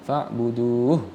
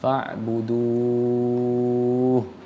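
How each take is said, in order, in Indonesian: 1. Vokalnya dibaca pendek sebelum berhenti. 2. Vokalnya dibaca panjang sebelum berhenti. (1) "jangan fa'buduh langsung berhenti di tengah-tengah" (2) "mad arid li sukunnya tetap dibaca panjang"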